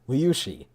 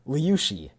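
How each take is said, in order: First: The middle consonant is an sh sound. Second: The middle consonant is an sh sound.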